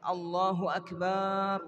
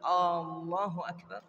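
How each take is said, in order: First: The ba syllable of Akbar is drawn out. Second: The opening vowel of Allahu is drawn out. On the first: "Atau baknya yang dipanjangkan" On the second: "memanjangkan lafaz atau huruf hamzah di awal"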